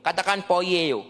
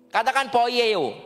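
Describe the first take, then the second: First: Said in the usual way. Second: "poieo" drawn out slowly and clearly for the crowd to repeat. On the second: Shown as a demonstration. Preacher prompting the congregation to repeat "poieo", slow and clear.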